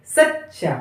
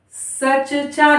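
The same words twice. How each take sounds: First: Said in the usual way. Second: सचचा with first च as a full syllable; split double consonant. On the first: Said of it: "क्या है?". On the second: Shown as a demonstration. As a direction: say सचचा as "sa-cha-chaa". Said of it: "सचचा नहीं". (सचचा में पहले च को पूरा बोलते हुए)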